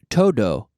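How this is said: The final D is made with the tongue further back. The speaker calls it wrong. "because we're pronouncing the D the English way"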